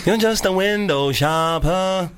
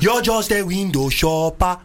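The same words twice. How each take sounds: First: Put-on slow Nigerian accent; drawn-out Nigerian accent taunt. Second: Put-on slow, heavy Nigerian accent; full Nigerian accent scolding. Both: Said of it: "in a Nigerian accent".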